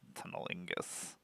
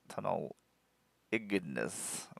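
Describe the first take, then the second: First: The name is said quickly and slurred. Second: The name is said carefully and clearly. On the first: The speaker calls it wrong. "weird word to say really fast" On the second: The speaker calls it right. "I'll say it properly, and it sounds a little bit better"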